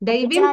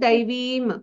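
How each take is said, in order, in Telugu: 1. చివరి m కి ముందున్న అచ్చు హ్రస్వం. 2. చివరి m కి ముందున్న అచ్చు దీర్ఘం. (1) "దైవీం కాదు" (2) "దైవీం దీర్ఘం"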